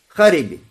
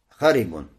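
First: The word ends with a short i vowel. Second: The word ends with an un sound. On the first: The ending copies the case of the neighbouring word. "Поэтому арабы говорят" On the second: The ending follows the word's own grammatical role. "По идее, как должно быть это предложение?"

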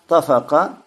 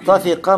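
First: The middle vowel is a. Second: The middle vowel is i. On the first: It is an acceptable but less eloquent form. "так и так правильно" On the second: It is the more eloquent form. "более красноречивый вариант тафика"

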